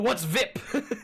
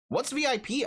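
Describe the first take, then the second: First: VIP is spoken as one word rhyming with zip. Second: VIP is spoken as three separate letters. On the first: The speaker calls it right. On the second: The speaker calls it wrong.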